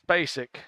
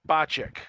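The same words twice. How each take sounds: First: The name is said the common, non-Texas way. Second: The name is said the Texas Czech way. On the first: The speaker calls it wrong. "here in Texas, we don't say it's Spacek" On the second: The speaker calls it right. "it's Spacek"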